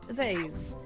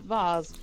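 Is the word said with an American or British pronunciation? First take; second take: American; British. First: The word has an American pronunciation. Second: The word has a British pronunciation. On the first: "as the Americans say" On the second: "as we say in England"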